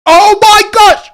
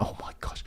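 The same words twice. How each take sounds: First: Very high, loud, drawn-out shriek; panicked scream. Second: Breathless unvoiced whisper of disbelief. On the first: Max fan screaming as George attacks Max. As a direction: scream it slowly in pure panic. Rivals about to collide on track. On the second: Fan whispering to chat as rivals close in. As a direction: hush it out, barely believing. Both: Real, not acted.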